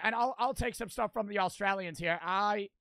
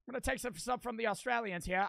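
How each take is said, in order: First: Mock British sliding into Australian; Australian accent slip. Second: Higher-pitched mock British voice; bad British accent. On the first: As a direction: let the fake British drift Australian. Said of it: "switched to an Australian accent". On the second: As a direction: steer back into a put-on British accent. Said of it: "that was a British accent".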